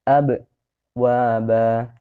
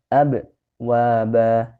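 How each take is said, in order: No difference in how they are said.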